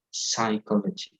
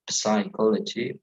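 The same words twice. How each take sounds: First: Psychology with a silent P, sy-kology; right pronunciation. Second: Psychology with the p sounded; wrong pronunciation. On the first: Teacher models the right way: psychology, P silent. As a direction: say psychology starting on the S, no P. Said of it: "but psychology". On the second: Teacher shows the wrong way: psychology with a spoken P. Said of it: "It's not psychology". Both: Shown as a demonstration.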